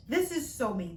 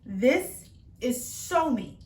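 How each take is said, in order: First: Said in the usual way. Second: Slow, stressed "so" in "This is so me"; drawn-out emphasis. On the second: Acted. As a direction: stretch "so" out slowly and lean on it. Repeating the phrase.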